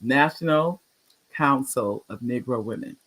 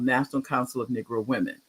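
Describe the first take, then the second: First: Measured repeat with a clear break; slow and deliberate. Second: Name run together in passing; quick, casual mention of the name; said kind of fast. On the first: Shown as a demonstration. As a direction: pause after National, then the rest carefully. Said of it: "I'm gonna say it slow". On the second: Real, not acted. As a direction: rattle off the organization's name. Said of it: "I said it kind of fast".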